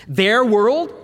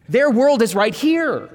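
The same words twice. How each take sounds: First: Questioning echo. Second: "Their world is right here" slower and firmly stressed; emphatic answer. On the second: Preacher correcting the topic title, with firm slow emphasis. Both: Shown as a demonstration. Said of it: "deal with the topic angels and their world".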